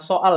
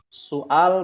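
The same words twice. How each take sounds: First: It is said with an Indonesian pronunciation. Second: It is said with an Arabic pronunciation. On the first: The speaker calls it wrong. "Soal kan bahasa Indonesia" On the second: The speaker calls it right. "Soal bukan soal ya"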